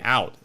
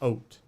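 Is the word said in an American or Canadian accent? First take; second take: American; Canadian. First: The vowel sounds like a plain American 'ow'. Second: The vowel sounds raised, closer to 'oat'. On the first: "They don't say out" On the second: "it's oat"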